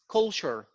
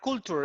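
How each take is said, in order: First: The ending sounds like 'cher', as in 'sure'. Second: The ending sounds like 'tur', not 'cher'. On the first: The speaker calls it right. "At the end, it goes like sure" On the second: The speaker calls it wrong. "it's not culture"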